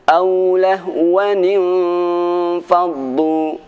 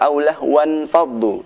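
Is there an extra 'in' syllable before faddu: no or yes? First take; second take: yes; no. First: An extra 'nin' syllable links into faddu. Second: The word ends in 'wan' before faddu. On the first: The speaker calls it right. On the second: The speaker calls it wrong.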